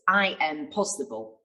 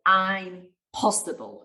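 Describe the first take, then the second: First: Said in the usual way. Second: I'm possible said slowly with a gap after I'm; split I'm possible. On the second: Shown as a demonstration. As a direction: slowly pull apart I'm possible, like a new phrase. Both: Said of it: "split it".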